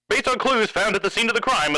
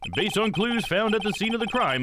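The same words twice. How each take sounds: First: It is read in a textured radio-announcer voice. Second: It is read in a plain, ordinary voice.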